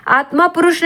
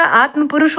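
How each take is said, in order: First: आत्मा with long final aa; wrong form. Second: Said in the usual way. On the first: Shown as a demonstration. Teacher rejects a misspelling, long-ended आत्मा. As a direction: say आत्मा पुरुष, aa held before पुरुष. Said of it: "आत्मा पुरुष नहीं होता". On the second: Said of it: "आत्म पुरुष होता".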